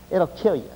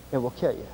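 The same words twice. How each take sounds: First: Said in the usual way. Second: "It will kill you" dropped much softer and lower, each word spaced; hushed grave repeat; quiet emphasis. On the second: Shown as a demonstration. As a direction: let the warning sink in quietly.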